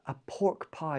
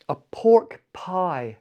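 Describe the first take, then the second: First: Softer echo of "A pork pie"; quiet repeat. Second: Very slow "A pork pie" with stress on "pork"; slow announcing. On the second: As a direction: reveal "A pork pie" slowly, like a menu item. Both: Shown as a demonstration.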